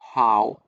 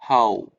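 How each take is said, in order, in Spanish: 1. La vocal empieza con un sonido 'a' abierto. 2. La vocal empieza con un sonido 'o' redondeado. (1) "Su pronunciación no es con how, como con cuando vemos la pregunta solita" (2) "La pregunta es con u, con o, u"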